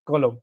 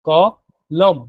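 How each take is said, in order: First: The word is said smoothly without a break. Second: The word is split with a pause after ক.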